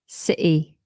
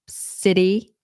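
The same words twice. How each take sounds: First: The middle T is a glottal stop. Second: The middle T is a quick flap. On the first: This is a more British way. "or like a glottal T" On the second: This is the more American way. "that's more American"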